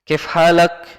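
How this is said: It is said in reduced Egyptian colloquial form. This is the language after it changed and was corrupted. The speaker calls it wrong. "kalau di Mesir"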